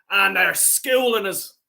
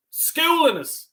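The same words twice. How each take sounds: First: Said in the usual way. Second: Schooling jumps much higher, stressed hard; Schooling us flung high and incredulous; outraged repeat. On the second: Real, not acted. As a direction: spit out Schooling in disbelief. Repeats phrase with rising anger.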